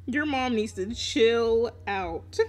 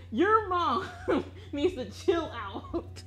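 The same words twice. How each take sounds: First: Slow, deliberate, with no laugh; drawn-out emphasis. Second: High, laughing "your mom", drawn-out finish; laughing scolding. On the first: Telling a friend about his mom, slow and emphatic. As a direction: stretch out "chill out" slowly. Repeats the line after laughing. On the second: Teasing a friend about his mom, laughing. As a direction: scold through a laugh, breaking up midway. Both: Real, not acted.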